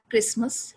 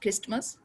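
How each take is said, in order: First: The word is said without a t sound. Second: The word is said with a t sound. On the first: The speaker calls it right. "simple Christmas तो बोलते हैं" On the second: The speaker calls it wrong. "not Christmas"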